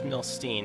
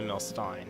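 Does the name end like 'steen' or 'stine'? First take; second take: steen; stine. First: The last syllable sounds like 'steen'. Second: The last syllable sounds like 'stine'. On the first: "I prefer it's Milstein" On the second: "not Milstein"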